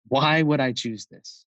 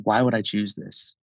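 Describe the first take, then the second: First: Slow, higher-pitched pointed question; re-enacted intensity, drawn out on the why; intense, not angry. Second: Understated retold intensity; pointed question with restrained force; intense, not angry. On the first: Brother answering whether it's a choice, intense. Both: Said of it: "not angrily, but really intensely".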